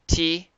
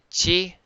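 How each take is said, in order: First: The syllable begins with a plain t sound. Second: The syllable begins with a ch sound. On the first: "Instead of saying t" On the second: "they say chi"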